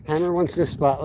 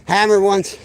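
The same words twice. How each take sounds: First: Said in the usual way. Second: Loud, higher call. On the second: Real, not acted. Announcing dog's claim to spot.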